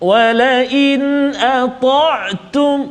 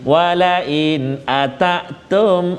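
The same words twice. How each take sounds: First: The 't' is said full, heavy and steady. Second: The 't' is said loose, thin and light. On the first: The speaker calls it right. "biar dia bunyi bunyi steady, dia bunyi kemas" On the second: The speaker calls it wrong. "Dia tak bunyi walain ata'tum ... dia tak kemas"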